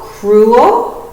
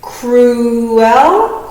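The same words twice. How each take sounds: First: Said in the usual way. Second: "Cruel" stretched as cru and el; careful split read of "Cruel"; syllable split demo. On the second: Shown as a demonstration. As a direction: say "Cruel" slowly in two parts. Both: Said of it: "The split in between the vowels".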